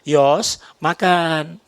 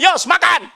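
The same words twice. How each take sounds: First: It is said in a soft, gentle tone. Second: It is said in a harsh, rough tone.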